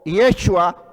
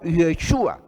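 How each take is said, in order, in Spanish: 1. El acento está en la primera sílaba. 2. El acento está en la última sílaba. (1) "algunos le colocan la tilde empezando" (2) "otros le colocan la tilde finalizando"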